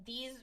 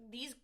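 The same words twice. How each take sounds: The two takes are said the same way.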